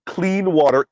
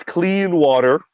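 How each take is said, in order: First: Said in the usual way. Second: "clean water" set apart slowly, as if quoted; air quotes. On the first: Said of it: "air quotes, clean water". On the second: Shown as a demonstration. Qualifying what people have in this country, "clean water" in spoken air quotes. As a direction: put slow, skeptical quote marks round "clean water". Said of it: "air quotes".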